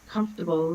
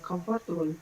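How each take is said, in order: First: It is said with native-like English pronunciation. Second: It is said with Spanish-accented pronunciation. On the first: The speaker calls it right. "They don't have difficulties with saying" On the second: The speaker calls it wrong. "instead of uh"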